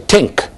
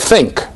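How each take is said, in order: First: The word begins with a plain t sound. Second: The word begins with a th sound.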